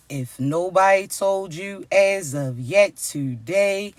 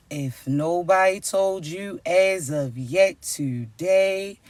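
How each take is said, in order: Both takes have the same delivery.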